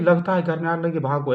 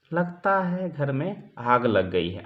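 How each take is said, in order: First: Hurried alarm. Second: Slow, relaxed, no hurry at all; calmly announcing the fire, no panic; calm and unhurried. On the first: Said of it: "इससे नहीं कि". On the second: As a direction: say it like nothing is wrong. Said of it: "आराम से, निठार से". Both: Shown as a demonstration.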